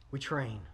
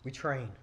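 First: "We train." again, soft, train falling; soft repeat stressing "train"; repeated hushed emphasis. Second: "We train." said softly, train falling; quiet stress on "train"; hushed emphasis. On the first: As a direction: repeat it quietly with weight on train. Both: Shown as a demonstration. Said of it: "What do we do?".

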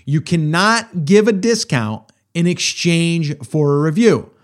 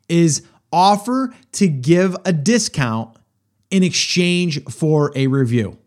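First: Slow, with weight on "cannot"; slow emphatic restatement. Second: Slow, deliberate, each word laid down; first careful statement of the rule; slow emphatic statement. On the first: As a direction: hammer the rule home a second time. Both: Shown as a demonstration. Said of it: "Let me say that one more time".

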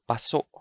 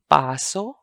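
First: Paso as pa-SO', both vowels short; short, stopped paso. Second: Paso as PAA-so, open rising end; long first syllable in Paso. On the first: Teacher contrasts the two words, paso short and stopped. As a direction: cut off the final vowel of "paso". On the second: Teacher contrasts the two words, Paso with long PAA. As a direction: stretch the first vowel of "Paso". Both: Shown as a demonstration. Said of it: "So that's paso and paso".

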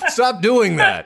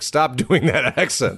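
First: High, laughing plea to stop; laughing mock plea. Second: Laughing mock plea. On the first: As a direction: beg them to stop through laughter. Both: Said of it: "Irish person in a life-threatening situation".

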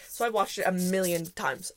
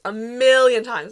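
First: Said in the usual way. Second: "A million times" said much louder and slower, leaning on "million"; loud, drawn-out "A million times"; emphatic repeat. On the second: Real, not acted. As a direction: hammer home "million". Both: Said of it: "I swear to God".

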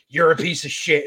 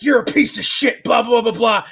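First: Said in the usual way. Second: Higher, louder mock telling-off; imitating a furious actor; mock angry yell. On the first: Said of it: "here's his dad saying". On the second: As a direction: yell it at him like an angry dad, half in jest. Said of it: "and he's like".

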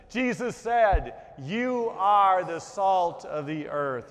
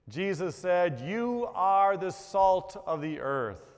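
First: "You are the salt of the earth" louder and slow, leading everyone; louder group recitation. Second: "You are the salt of the earth" said slowly, are stressed; slow recitation. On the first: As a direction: lead the whole congregation, louder. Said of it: "Let's try it again. Together". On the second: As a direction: recite it slowly for the congregation to memorize. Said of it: "I'll say it once". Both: Shown as a demonstration.

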